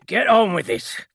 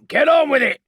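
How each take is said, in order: First: Grim order, higher and louder; a hint of a grim sergeant insisting. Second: Barked order, high and loud; impatient sergeant barks from the doorway, loud; commanding sergeant. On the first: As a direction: clamp down with grim authority. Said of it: "said Zalsk grimly". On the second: Acted. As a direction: snap the order at the squad. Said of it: "said Zalsk".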